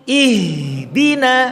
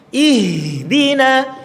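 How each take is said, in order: No difference in how they are said.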